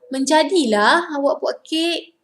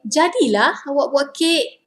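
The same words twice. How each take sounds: First: Menjadilah awak buat kek, higher lift on menjadilah; correct intonation. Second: Jadilah awak buat kek, stress on jadilah; correct intonation. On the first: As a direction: praise the cake with a lift on Menjadilah. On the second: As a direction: praise the cake with a lift on jadilah. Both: Shown as a demonstration. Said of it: "the correct intonation".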